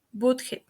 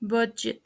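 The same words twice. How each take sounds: First: "budget" as BOOD-heh; "budget" with h for g, t dropped; mispronounced. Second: "budget" as BUH-jet; correct pronunciation. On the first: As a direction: say "budget" with oo and Spanish h. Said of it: "The first word mispronounced is". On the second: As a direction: say "budget" with a j sound. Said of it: "The correct pronunciation is". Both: Shown as a demonstration.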